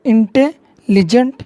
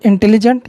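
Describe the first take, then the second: First: intelligent drawn out very slowly, syllable by syllable; slow teacher demo of intelligent, syllables pulled apart. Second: Said in the usual way. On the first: Shown as a demonstration. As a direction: stretch out intelligent so each syllable can be counted. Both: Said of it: "তাই intelligent".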